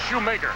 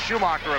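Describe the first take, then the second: First: The middle vowel is an ay sound. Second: The middle vowel is an ah sound. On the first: The speaker calls it right. "but the girls pronounce it Shoemaker" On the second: The speaker calls it wrong. "I may have pronounced it Schumacher a few times"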